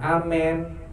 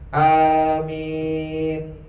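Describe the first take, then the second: First: The vowels are short, the second like 'e'. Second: Both vowels are drawn out long. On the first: The speaker calls it wrong. "Bukan amen" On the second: The speaker calls it right. "A-nya panjang, min-nya panjang"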